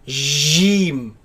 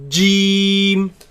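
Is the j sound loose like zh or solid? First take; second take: loose; solid. First: The j is loose, sounding like zh. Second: The j is solid with a full closure. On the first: The speaker calls it wrong. "Some people they loosen this letter" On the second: The speaker calls it right. "It is a solid letter"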